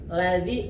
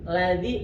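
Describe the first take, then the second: First: The middle consonant is a soft 'dh' sound. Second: The same.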